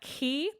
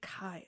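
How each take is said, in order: First: The name is said with an ee vowel. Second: The name is said with an eye vowel. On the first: The speaker calls it right. "a more accurate um Greek pronunciation" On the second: The speaker calls it wrong. "like the uh, American fraternities would have you believe. Chi, it's terrible"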